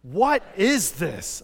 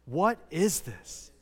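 First: Loud, very slow and drawn out; said loudly. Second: Slow, at a normal volume; leading a group repeat. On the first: Preacher urges the congregation to say it louder, loudly. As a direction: belt out each word for all to join. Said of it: "Say it loudly". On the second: Preacher has the congregation say the words with him, slowly. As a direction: spell it out slowly for everyone to join. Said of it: "Say those words with me". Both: Shown as a demonstration.

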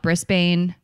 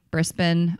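First: Brisbane said as "BRIS-bane"; unsure pronunciation. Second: Brisbane said as "BRIS-bin"; alternative pronunciation. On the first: Host unsure of the city, Brisbane with long ending. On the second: Host trying the other version, Brisbane with short ending. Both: Shown as a demonstration. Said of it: "I don't know that one either".

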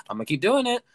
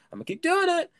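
First: Said in the usual way. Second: Very high, louder playful squeal; playful falsetto insistence; high squeaky repeat. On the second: Pretend. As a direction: squeak it out far above your usual voice.

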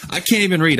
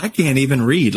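First: Pitched up on "I can't even read", exasperated with herself; exasperated self-mockery. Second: Said in the usual way. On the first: Worship leader mocking herself to her church, pitched high. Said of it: "It's like". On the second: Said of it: "started talking to them like".

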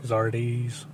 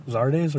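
First: "Zardes" said as ZAR-deez; pronunciation ZAR-deez. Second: "Zardes" said as ZAR-dez; pronunciation ZAR-dez. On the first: Co-host trying out a player's name, "Zardes" as ZAR-deez. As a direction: say "Zardes" with an ee in the second syllable. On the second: Co-host offering another way to say the name, "Zardes" as ZAR-dez. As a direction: say "Zardes" with an eh in the second syllable. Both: Shown as a demonstration. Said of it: "how do you say it?".

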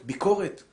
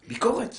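First: Rising question. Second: ביקורת said much higher, as a cry; shocked high-pitched ביקורת; ביקורת flung out high and loud; high mock exclamation. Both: Shown as a demonstration.

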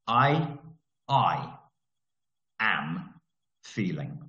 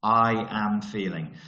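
First: Word by word with long pauses, dropping lower; slow dictated template. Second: Slow but joined into one phrase, falling; slow recap. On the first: Coach dictating a basic affirmation to listeners, slowly word by word. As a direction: spell it out one word at a time, slow and low. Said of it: "this is how I do it". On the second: Coach repeating the affirmation template to note-takers, slow and connected. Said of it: "Take that down as a note". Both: Shown as a demonstration.

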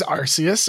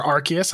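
First: "Arceus" with an S sound: AR-see-us; soft-C pronunciation. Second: "Arceus" with a K sound: AR-kee-us; hard-C pronunciation. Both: Shown as a demonstration. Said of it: "I don't know how to say it".

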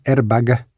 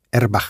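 First: Airbag ending in a hard g sound; airbag, final g clearly voiced. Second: Airbag ending in a harsh jota, erbax. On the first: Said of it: "No diferenciamos entre el sonido G". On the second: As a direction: say airbag as if it ended in J. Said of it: "airbag con J". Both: Shown as a demonstration.

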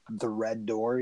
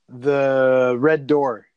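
First: Said in the usual way. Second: Very slow, drawn out and louder; dramatic slow reveal. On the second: Retold or imitated. Building suspense for her cohost with a slow dramatic reveal. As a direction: savour each word like a horror trailer.

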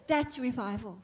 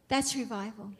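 No difference in how they are said.

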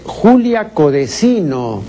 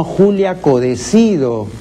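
First: "Codesino" ending in -no, stressed "co-de-SI-no"; misprinted surname. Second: "Codecido" ending in -do, stressed "co-de-CI-do"; correct surname. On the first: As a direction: sound a clear n at the end of "Codesino". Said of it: "No es Julia Codesino". ("Codesino" con ene, como la errata) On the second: ("Codecido" correcto, con de) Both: Shown as a demonstration.

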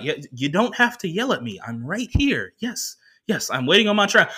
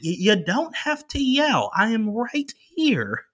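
First: Lightly acted put-upon passenger, a bit higher; mildly irritated protest. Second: Slow, high, drawn-out plea; exasperated protest. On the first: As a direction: protest mildly at being yelled at. Passenger answering the yelling worker. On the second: Retold or imitated. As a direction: spell it out slowly to someone who keeps yelling. Passenger protesting the yelling, slower.

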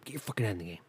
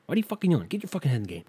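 First: Quieter self pep talk. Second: Self pep talk. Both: Pretend.

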